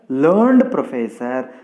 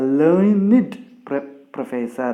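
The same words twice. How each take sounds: First: The ending of 'learned' is a plain 'd' sound. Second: The ending of 'learned' is a separate 'id' syllable. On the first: The speaker calls it wrong. "We should not use it as learned professor" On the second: The speaker calls it right. "Here we must pronounce it as a learned professor"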